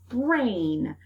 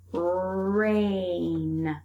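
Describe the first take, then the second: First: Said in the usual way. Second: Rain drawn out, the vowel held long; stretched word. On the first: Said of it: "break it apart". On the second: Shown as a demonstration. Teacher stretching a word so kids hear the middle sound. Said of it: "break it apart into its beginning, middle".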